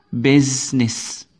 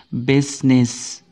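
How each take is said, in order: Both takes have the same delivery.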